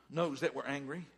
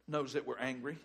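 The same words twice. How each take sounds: The two takes are said the same way.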